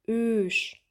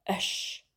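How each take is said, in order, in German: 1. Der Vokal ist lang, der Kiefer bleibt fast geschlossen. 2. Der Vokal ist kurz, der Unterkiefer fällt deutlich. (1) "das lange Ö" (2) "das kurze Ö"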